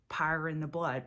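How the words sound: Power is flattened to sound like pyre.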